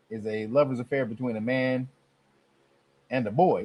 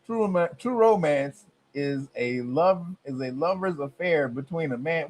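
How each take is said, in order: First: Said in the usual way. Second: Incredulous reread. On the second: Shown as a demonstration. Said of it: "What the hell you talking about?".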